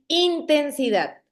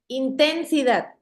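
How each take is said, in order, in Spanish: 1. El acento está en la primera sílaba. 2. El acento está en la segunda sílaba. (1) "si la tuvieran en, en la primera I, sonara así" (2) "si la tuviera en la, en la sílaba ten, sonara así"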